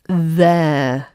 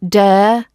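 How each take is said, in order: First: The word begins with a th sound. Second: The word begins with a d sound. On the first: The speaker calls it right. "It's there" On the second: The speaker calls it wrong. "Don't use a d or a s or a v sound instead of this th sound. Not dare"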